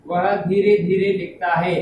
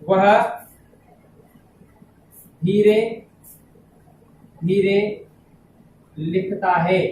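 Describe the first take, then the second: First: Said in the usual way. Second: Word by word, long pauses between words; slow dictation. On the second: Shown as a demonstration. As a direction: dictate it slowly for students to write down. (धीमे-धीमे, शब्द-दर-शब्द लिखवाते हुए) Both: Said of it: "जैसे".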